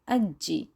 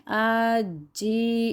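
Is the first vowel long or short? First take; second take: Short; Long. First: The first vowel is kept short. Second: The first vowel is drawn out long. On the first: The speaker calls it right. "बल्कि अज्जी" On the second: The speaker calls it wrong. "इसको भी हम लंबा नहीं अज्जी ऐसे नहीं करेंगे"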